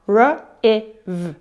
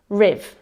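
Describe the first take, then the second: First: R-I-V split into separate sounds r, i, v; sounding out sounds. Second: Riv said as one smooth blended syllable. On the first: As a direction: sound out R-I-V one phoneme at a time, with small gaps. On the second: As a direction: glide the sounds together into riv. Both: Shown as a demonstration. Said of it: "First part".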